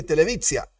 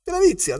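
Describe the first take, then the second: First: Televizia said the Hebrew way, tse sound in the middle; Hebrew word televizia. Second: Televizia. said much higher, stressed hard on VI; emphatic repeat. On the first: Teacher giving the Hebrew word televizia. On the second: Teacher repeating Televizia. loudly high to drive it home. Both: Shown as a demonstration. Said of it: "televisión se dice televizia".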